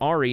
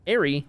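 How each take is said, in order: First: The first syllable sounds like 'are'. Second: The first syllable sounds like 'air'. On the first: "you're a pirate" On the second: "you're an airplane person"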